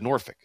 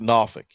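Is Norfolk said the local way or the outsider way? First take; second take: outsider; local. First: It is said with a non-local, outsider pronunciation. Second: It is said with the local Tidewater pronunciation. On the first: The speaker is not from the area. "I always said Norfolk" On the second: The speaker is from the area. "You're a local if you say that"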